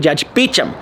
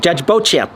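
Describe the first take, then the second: First: The name is pronounced like Beecham. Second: The name is pronounced like Beauchamp. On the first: The speaker calls it right. "But it's actually Judge Beecham" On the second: The speaker calls it wrong. "I thought his name was pronounced Beauchamp"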